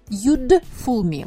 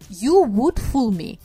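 First: Would is reduced to a short d sound. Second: Would is said in full as a word.

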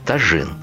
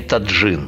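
First: The middle consonant is a 'zh' sound. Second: The middle consonant is a 'dzh' sound. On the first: The speaker calls it right. "Сначала учимся произносить слово тажин" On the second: The speaker calls it wrong. "Ни в коем случае не таджин, как говорят у нас почти все"

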